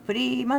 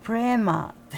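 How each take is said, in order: First: プリーマ with a long "ee": puree-ma; formal Sanskrit pronunciation. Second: プレーマー as "PRAY-maa", long stressed "ay"; American pronunciation. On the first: Shown as a demonstration. Fan explains the proper Sanskrit name to viewers, formal pronunciation. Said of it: "正式なね、発音". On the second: Retold or imitated. Fan copies how the singer said it, American pronunciation. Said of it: "アメリカンな発音でね".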